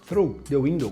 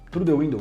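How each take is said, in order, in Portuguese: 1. O 'th' em 'through' é moldado com cuidado usando a língua. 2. O 'th' em 'through' é falado de forma simples. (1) "você tem que fazer a, a puxar o S, né, a língua com S para dentro" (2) "eu quis dizer the cat run through the window"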